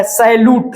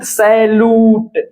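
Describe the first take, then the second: First: Said in the usual way. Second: "सैल्यूट" said slowly, long यू held; slow teacher's demonstration of "सैल्यूट" in drawn-out syllables; drawn-out sound. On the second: Shown as a demonstration. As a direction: stretch the यू in "सैल्यूट" before the final ट. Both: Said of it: "यू आ रहा है".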